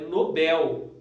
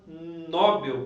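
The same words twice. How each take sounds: First: The stress is on the second syllable. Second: The stress is on the first syllable. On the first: The speaker calls it right. "Na verdade, pessoal, é Nobel" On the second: The speaker calls it wrong. "o pessoal tem mania de falar Nobel"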